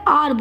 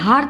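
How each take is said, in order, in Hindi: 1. यह शब्द स्वर ध्वनि से शुरू होता है। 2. यह शब्द h ध्वनि से शुरू होता है। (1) "आर बोलते हैं" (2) "अब इसे हार तो नहीं बोलते"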